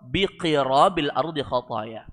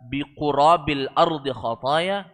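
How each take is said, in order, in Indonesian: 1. Huruf vokal pertama setelah q adalah i. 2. Huruf vokal pertama setelah q adalah u. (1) "bisa dibaca qirab" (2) "dengan di dhammah qafnya"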